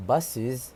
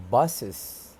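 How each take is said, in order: First: "buses" ending in an i sound, "bus-iz"; dictionary pronunciation. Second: "buses" ending in a schwa, "bus-uhs"; schwa mispronunciation. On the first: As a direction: say "buses" with a short i in the last syllable. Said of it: "instead of the I P A pronunciation". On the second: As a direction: say "buses" slowly with a schwa in the last syllable. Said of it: "a schwa sound". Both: Shown as a demonstration.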